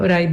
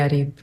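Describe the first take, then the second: First: The name is said as Uraib. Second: The name is said as Arib. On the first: The speaker calls it wrong. "Uraib is not the correct pronunciation" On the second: The speaker calls it right. "It has to be Arib"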